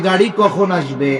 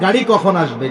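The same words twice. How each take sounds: First: It is asked in a calm, neutral way. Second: It is asked in an impatient, annoyed way. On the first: The asker simply wants information. "প্রথমবার আপনি সংবাদ জানতে চাইছেন" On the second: The asker complains that it is already late. "এগারোটায় গাড়ি আসার কথা এখনো আসে না কেন?"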